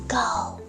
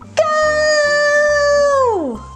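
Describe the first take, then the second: First: It is said quietly. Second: It is said very loudly.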